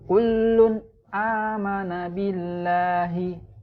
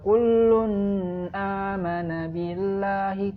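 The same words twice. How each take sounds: First: The n sound is pronounced clearly and separately. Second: The n sound is blended into the next word. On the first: The speaker calls it right. "dia harus dibaca jelas" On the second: The speaker calls it wrong. "Tidak boleh dibaca"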